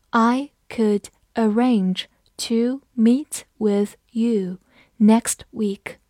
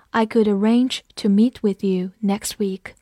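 First: Slow, each word set apart; slow read-along. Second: Said in the usual way. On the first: Shown as a demonstration. Teacher reads the sentence together with learners, slow reading. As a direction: read it slowly, pausing between words. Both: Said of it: "我们慢读一遍".

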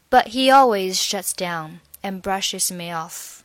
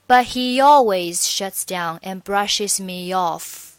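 First: "me off" with only a faint y joining the words; light glide. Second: "me off" with the y sound pushed hard and clear; overdone glide. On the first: Teacher giving the correct, lightly linked version. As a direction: let the y barely link "me off". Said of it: "这个音它只是起到一个连接的作用". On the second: Teacher demonstrating the wrong, overdone linking. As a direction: force the linking y too clearly on purpose. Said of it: "错误的示范呢是". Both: Shown as a demonstration.

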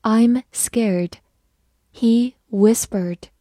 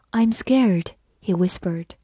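First: "I'm scared, he whispered" slowly, each word set apart; slow reading. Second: Said in the usual way. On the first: Shown as a demonstration. Teacher leads learners through "I'm scared, he whispered", slow reading. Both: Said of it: "慢慢来读".

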